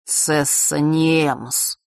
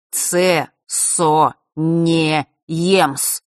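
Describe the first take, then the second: First: Said in the usual way. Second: "Цесо не емс" drawn out very slowly, syllable by syllable; clear, angry repetition. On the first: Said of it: "чётко и зло повторил". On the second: A narrator's reading. Fesh repeats his secret name to Vasilisa, "Цесо не емс" in slow, cross, separate syllables. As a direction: spell out "Цесо не емс" crossly, a pause after each syllable. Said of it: "чётко и зло повторил Фэш".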